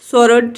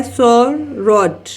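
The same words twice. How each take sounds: First: Said in the usual way. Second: सोरड slowly in two beats, "सो, रड"; teacher drawing out both syllables of सोरड; split into syllables. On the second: Shown as a demonstration. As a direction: break सोरड after its first syllable. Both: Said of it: "ये भी टू syllable word है".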